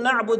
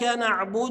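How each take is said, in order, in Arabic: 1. الدال الأخيرة ساكنة، بلا حركة. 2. الدال الأخيرة عليها ضمة قصيرة. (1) "بعض الناس يسكنها" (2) "هي مش ساكنه هي مضمومه"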